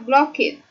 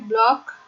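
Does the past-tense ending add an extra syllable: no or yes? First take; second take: yes; no. First: The ending is said as an extra syllable. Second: The ending is a plain t sound. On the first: The speaker calls it wrong. "itu tidak dibaca block it" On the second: The speaker calls it right. "tapi block"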